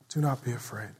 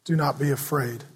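First: Softer echo. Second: Gentle reassurance. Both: Shown as a demonstration. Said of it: "And he says".

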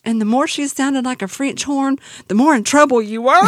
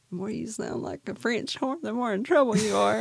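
First: Loud, high retelling that builds toward a laugh; building punchline. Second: Lightly voiced echo of a friend, a bit higher; imitating a friend. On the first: Retold or imitated. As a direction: belt out the punchline, getting louder to the last word. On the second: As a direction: replay her line as if heard in your head at bedtime, restrained. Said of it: "I can hear her going".

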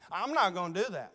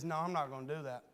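First: Steady, firm restatement, 'not' landing clearly; firm refusal. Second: Low, soft and fast, almost under the breath; quiet quick refusal. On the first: Jonathan refusing to tell the lie, firm and steady. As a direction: say it plainly and firmly. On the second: Jonathan quietly turning down David's request, soft and quick. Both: Shown as a demonstration.

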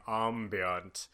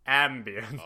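First: "Ambient" said French-style, AHM-bee-ahnt. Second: "ambient" said AM-bee-ent, a as in cat; "ambient" with short a. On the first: Sitting in a tea shop testing it, "Ambient" as AHM-bee-ahnt. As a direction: try out "Ambient" with an open ah. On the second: Sitting in a tea shop testing it, "ambient" as AM-bee-ent. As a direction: try out "ambient" with a flat English a. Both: Retold or imitated. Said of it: "sitting in a tea shop saying".

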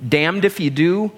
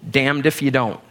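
First: "do" lifted with a rising tune; damned if you "do", rising; stress on do. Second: "don't" dropped low with a falling close; damned if you "don't", falling; stress on don't. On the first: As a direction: lean up on "do", leave it hanging. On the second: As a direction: land down on "don't" to finish. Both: Shown as a demonstration. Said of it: "in quotes, you can write".

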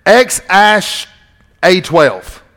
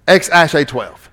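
First: X Ash A twelve broken into parts; X, Ash, A twelve spelled out carefully; pronouncing X Ash A twelve. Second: Said in the usual way. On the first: Shown as a demonstration. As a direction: sound out X Ash, pause, A twelve. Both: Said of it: "that you pronounce it".

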